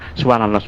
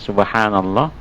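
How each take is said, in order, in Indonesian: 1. Vokal panjang dipotong pendek. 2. Vokal panjang ditahan sedikit lebih lama. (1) "jangan subhanallah mana dia mat tak ada" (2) "tekan sedikit"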